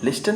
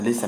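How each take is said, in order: First: लिस्टन said "lis-ten", T pronounced; sounded T. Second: लिसन said "lis-en", with no T; silent T. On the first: Teacher shows learners how not to read listen, T sounded. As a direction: say लिस्टन with an audible T after the S. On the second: Teacher shows learners how listen is read, silent T. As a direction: say लिसन going straight from S to the vowel. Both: Shown as a demonstration. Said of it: "लिस्टन नहीं पढ़ते हैं".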